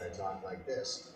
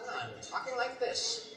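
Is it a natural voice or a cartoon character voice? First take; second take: natural; cartoon character. First: It is said in his natural voice. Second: It is said in Inspector Gadget's voice.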